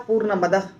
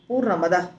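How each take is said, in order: First: The two words are run together as one. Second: The two words are run together as one.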